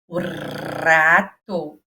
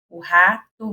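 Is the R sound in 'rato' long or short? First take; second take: long; short. First: The R sound is drawn out and prolonged. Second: The R sound is short and normal.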